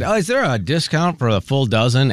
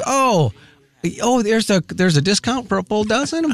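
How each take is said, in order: First: Lightly acted innocent question; a touch of mock innocence; feigning ignorance. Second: Higher-pitched voice for the store clerk; high, halting retold question; imitated checker. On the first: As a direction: ask as if you didn't know. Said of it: "like I didn't know". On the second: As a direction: raise the pitch to play a surprised cashier. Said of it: "she goes".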